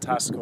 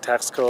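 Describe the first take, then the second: First: The middle is said with a plain s sound. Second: The middle is said with a ks sound. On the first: This is how local people say it. "Mexicans pronounce it Tasco" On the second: This is how English speakers say it. "We would say Taxco"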